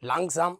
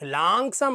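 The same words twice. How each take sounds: First: The first vowel a is kept short. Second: The first vowel a is drawn out long. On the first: The speaker calls it right. "അവിടെ ആ എന്നുള്ളത് ഷോർട്ടാണ്" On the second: The speaker calls it wrong. "ലാങ്സാം എന്ന് പറയരുത്"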